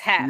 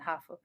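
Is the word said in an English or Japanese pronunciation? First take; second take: English; Japanese. First: It is said as one English syllable. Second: It is said as two Japanese-style syllables. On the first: "it's English, it's half" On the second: "in Japanese pronunciation, hafu"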